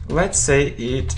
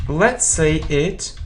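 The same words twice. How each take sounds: The two takes are said the same way.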